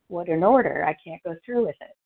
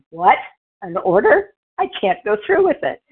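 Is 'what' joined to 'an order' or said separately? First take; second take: joined; separate. First: What an order is one joined exclamation. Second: What and an order are separate indignant questions.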